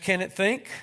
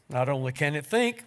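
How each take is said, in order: First: Higher, rising question on think; curious question. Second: Said in the usual way. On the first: A narrator's reading. Angel curiously questioning the Lord, rising on think. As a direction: ask it with curiosity. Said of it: "The angel asked".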